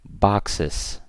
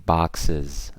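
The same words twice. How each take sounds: First: The word ends with an s sound. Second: The word ends with a z sound. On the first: The speaker calls it wrong. "don't say boxes" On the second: The speaker calls it right. "say boxes... That final S is pronounced as Z"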